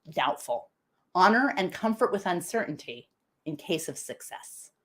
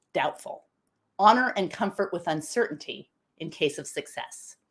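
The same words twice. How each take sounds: No difference in how they are said.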